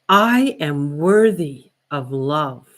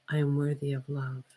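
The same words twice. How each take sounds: First: It is said strongly with much energy. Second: It is said quietly with little energy.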